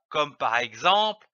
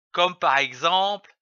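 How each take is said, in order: Both takes have the same delivery.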